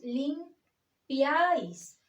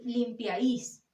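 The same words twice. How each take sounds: First: The stress falls on the vowel a. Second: The stress falls on a vowel other than a. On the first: The speaker calls it right. "decimos limpiáis" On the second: The speaker calls it wrong. "No decimos limpiáis"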